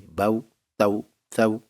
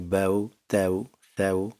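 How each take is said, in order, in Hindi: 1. ये अक्षर सख्ती और झटके से बोले जाते हैं। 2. ये अक्षर नरमी और आराम से बोले जाते हैं। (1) "इस तरह सख्ती नहीं करनी" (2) "इसको नरमी से पढ़ना है"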